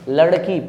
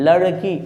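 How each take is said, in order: No difference in how they are said.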